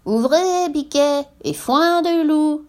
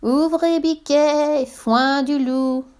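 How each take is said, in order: First: High, drawn-out singsong falsetto; wolf faking a she-goat's voice; imitating mother goat. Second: High, very slow, stretched-out falsetto; wolf faking a tiny sweet voice; tiniest voice. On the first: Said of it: "en imitant la voix de la chèvre". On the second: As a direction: coax in a teeny high voice. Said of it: "en faisant sa plus petite voix". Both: A narrator's reading.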